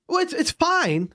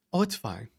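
First: High, slow, exasperated echo; mock incredulous echo. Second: Low, soft, offhand reply; dismissive cafe worker. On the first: Customer throwing the cafe worker's excuse back, incredulous. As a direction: throw the reply back, pitched way up. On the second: Retold or imitated. Cafe worker excusing a customer without a mask, offhand. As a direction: imitate someone casually waving it away.

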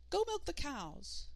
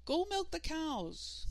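First: Put-on higher, slow piping boy voice; small child voice. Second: High, slow call down the hall. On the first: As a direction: try the words in a tiny voice. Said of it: "just to test out his voice again". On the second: Acted. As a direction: call from the other room, motherly. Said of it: "called their mother from down the hall".

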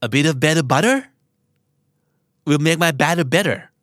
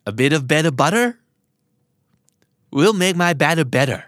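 First: Each word placed slowly and clearly; slow, careful tongue twister. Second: Said in the usual way. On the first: Shown as a demonstration. Teacher drilling a tongue twister for learners, slow and deliberate. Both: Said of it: "พูดไปห้าครั้งนะครับ".

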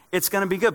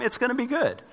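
First: Said in the usual way. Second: Good pitched much higher and falling; to his family on a jammed highway, a lilting high good; high sing-song reassurance. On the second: Retold or imitated. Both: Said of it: "I'm like".

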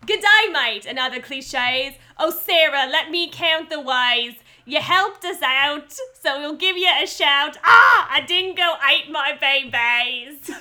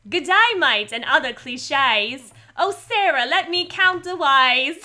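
First: Loud, higher, stretched-out Australian limerick; comic Australian, slow and big on the vowels; broad Australian accent. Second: Slow, broad Australian drifting to stage Cockney; Australian accent slipping into My Fair Lady. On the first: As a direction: declaim it in hammed-up Australian. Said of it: "Australian accents are really hard". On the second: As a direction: belt out a botched Australian accent. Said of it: "I turned into My Fair Lady really quickly". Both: Acted.

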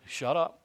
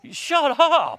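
First: Lightly voiced God, a bit higher and brisk; a hint of God telling him off; God's voice, mild. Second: Very high, loud shout of shut up; God yelling at him to stop. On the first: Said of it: "and God's just". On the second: Retold or imitated. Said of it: "God's going".

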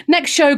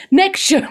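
First: Said in the usual way. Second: Higher-pitched attempt at Scouse; Scouse accent. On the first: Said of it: "my scouse has gone all over". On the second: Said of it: "oh, my scouse has gone".

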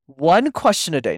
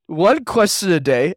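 First: "one" hit hard, rest light; "one" pushed, not ten; stress on one. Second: "One question a day" slower, "one" raised; "One" lifted and drawn out; slow stressed repeat. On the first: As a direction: lean on the word "one". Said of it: "not ten". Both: Shown as a demonstration.

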